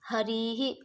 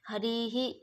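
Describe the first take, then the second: No difference in how they are said.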